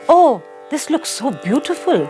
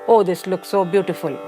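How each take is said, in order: First: It is said with lively, emotional expression. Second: It is said flatly, with no emotion. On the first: The speaker's feeling is clear from the tone. The speaker calls it right. "you automatically understand from the tone what I'm trying to depict" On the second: The listener cannot tell whether the speaker is happy or sad. The speaker calls it wrong. "There is absolutely no emotion here"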